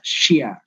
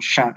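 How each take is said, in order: First: A y glide follows the sh sound. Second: The sh goes straight into the vowel. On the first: The speaker calls it wrong. "mereka mengucapkannya syia" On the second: The speaker calls it right. "shin ya langsung sya"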